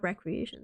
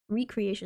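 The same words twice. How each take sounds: First: The word begins with a short 'rek' sound. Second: The word begins with a long 'ree' sound. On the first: Leisure activity. The speaker calls it wrong. "That's a different word" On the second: Something made again. The speaker calls it right. "Recreation, not recreation"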